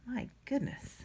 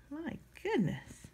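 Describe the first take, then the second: First: Soft groan while straining at a lid; opening a stuck jar. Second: Higher, slower, soft strained sigh; straining at a stuck lid. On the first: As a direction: exhale it under the effort of twisting. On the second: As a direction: stretch it out mid-twist, breath held. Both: Real, not acted. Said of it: "I'm still trying to get the lid off".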